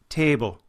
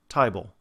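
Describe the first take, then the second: First: It is said in an Irish accent. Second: It is said in a Cockney accent. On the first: "as in Irish, where table becomes a table" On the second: "a lower class British accent, a Cockney dialect, that sound is closer to I"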